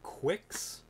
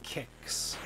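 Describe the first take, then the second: First: The word begins with a kw sound. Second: The word begins with a plain k sound. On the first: The speaker calls it wrong. "you could think that it could be quicks" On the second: The speaker calls it right. "it's actually pronounced... it's like kicks"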